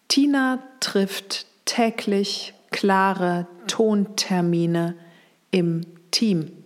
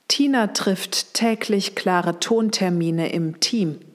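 First: The sentence is spoken at a slower pace. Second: The sentence is spoken at a faster pace.

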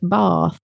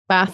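First: The vowel is long, southern style. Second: The vowel is short, northern style.

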